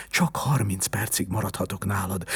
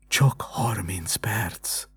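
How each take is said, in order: First: Said in the usual way. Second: Slow, whispered sigh of mock drama; a student hamming up sorrow, slow sighing whisper; sighed with false pathos. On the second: A narrator's reading. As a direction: sigh it out as overdone theatrical grief. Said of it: "sóhajtott a diák hamis pátosszal".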